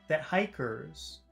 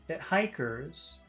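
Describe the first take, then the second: The two takes are said the same way.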